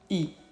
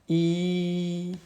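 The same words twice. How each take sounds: First: The vowel is short and brief. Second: The vowel is held for two beats.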